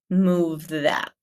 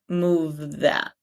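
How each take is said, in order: The two takes are said the same way.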